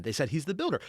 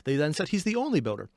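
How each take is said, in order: First: Said in the usual way. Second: Only leaned on with a falling tune; the only builder, with only stressed. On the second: Shown as a demonstration. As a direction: land on the word only.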